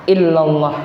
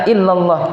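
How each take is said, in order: Both takes have the same delivery.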